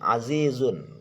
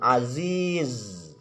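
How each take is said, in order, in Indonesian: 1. Kata itu berakhir dengan akhiran sengau -un. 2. Kata itu berakhir tanpa akhiran -un.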